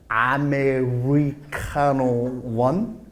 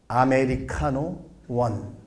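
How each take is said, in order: First: The R in Americano sounds strong and English-like. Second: The R in Americano sounds plain and Korean-like.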